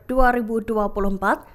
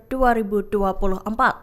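No difference in how they are said.

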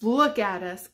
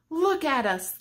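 First: Said in the usual way. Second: Lifted refrain. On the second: Acted. Repeated refrain, first take higher.

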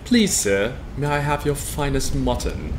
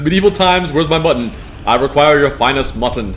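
First: Softer, pleading British request; meek British accent. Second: Loud, grand British medieval demand; posh British accent. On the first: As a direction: beg politely like a British servant. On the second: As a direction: boom it out like a British lord at a feast. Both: Pretend. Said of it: "I dig the Brit accent".

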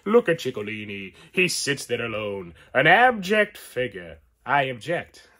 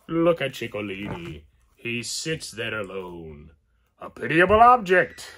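First: A hint of Chico's Italian accent, louder on the punchline; second Chico accent try. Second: A lightly voiced Italian Chico accent, rising loud at the end; attempted Chico Marx accent. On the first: Retrying the Chico quote, a touch of Italian accent. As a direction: take another swing at Chico's accent. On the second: Reading Chico's line off the figure, in a mild Chico accent. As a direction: try on Chico's mock Italian voice. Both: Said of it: "I can't do Chico".

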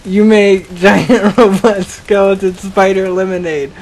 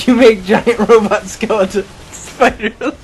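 First: Punchline pushed out firmly, word by word to "lemonade"; deliberate corrected retake. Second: Botched punchline dissolving into laughter; cracking up. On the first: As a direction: land "giant robot skeleton spider lemonade" carefully after flubbing it. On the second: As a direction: lose it laughing as you finish the joke. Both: Real, not acted. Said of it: "What I meant to say".

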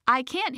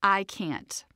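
First: Hilda's voice. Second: Said in the usual way. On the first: Shown as a demonstration. Narrator voicing the inner critic Hilda, mildly doubting. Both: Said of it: "Hilda, amplifies self-doubt".

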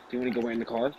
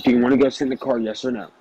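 First: Softer, low-key retold question. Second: Retold annoyed demand. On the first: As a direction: ask it quietly, as quoting someone. Retelling the first, milder asking. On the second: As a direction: press the question, imitating someone fed up. Retelling the angry repeated demand.

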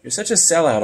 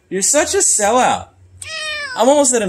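First: Said in the usual way. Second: Higher mock-accusing tease of "sellout"; higher playful jab at the cat; higher teasing. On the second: Real, not acted. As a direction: lift it up and needle the cat.

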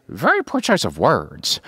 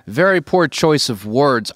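First: Swooping high then dropping, in character; Joker impression. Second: Said in the usual way. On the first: Shown as a demonstration. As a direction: swing up high on "Very", then fall. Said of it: "that was like a high". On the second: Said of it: "when he says to Batman".

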